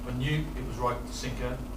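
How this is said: It is said with deliberate pauses between phrases. The speaker sounds more believable. The speaker calls it right. "So we put the pauses in it"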